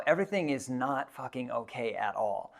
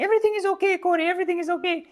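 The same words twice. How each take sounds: First: Said in the usual way. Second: Very high, loud squeaky reassurance; imitating Simone's high voice. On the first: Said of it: "I remember thinking to myself". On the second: Quoting the climbing partner digging him out of the avalanche, high squeaky voice. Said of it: "he was saying".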